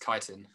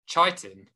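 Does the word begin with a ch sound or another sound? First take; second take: another sound; ch sound. First: The word begins without a ch sound. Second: The word begins with a ch sound. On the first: The speaker calls it right. "It's chitin" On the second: The speaker calls it wrong. "your teacher pronounces it chitin with a ch"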